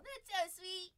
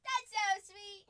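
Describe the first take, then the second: First: Lightly lifted, affectionate aww; touched cooing. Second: Louder, higher affectionate squeal; gushing. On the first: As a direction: melt a little over the dog. Coos over her dog. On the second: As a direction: gush loudly over the dog. Coos again, louder. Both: Real, not acted.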